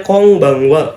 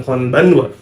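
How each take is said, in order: First: "Konbanwa" with both n as velar ng; read as kongbangwa. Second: "Konbanwa" with plain front n sounds; spelled-out n, wrong. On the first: Teacher gives students the correct reading, kongbangwa. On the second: Teacher shows students the wrong reading, with plain n sounds. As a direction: say "Konbanwa" letter by letter. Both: Shown as a demonstration.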